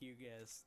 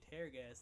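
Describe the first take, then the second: First: Tear rhymes with here. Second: Tear rhymes with bear. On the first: The gas makes enemies cry. "they just cry" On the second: The gas rips enemies apart. "then it will tear them up. Literally. Tear them"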